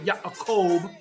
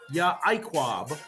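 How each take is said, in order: First: The name ends with a kov sound. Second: The name ends with a kwab sound. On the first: This is how some other people say it. "some people say Yaakov" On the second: This is the Paleo Hebrew pronunciation. "We pronounce it Yaquab"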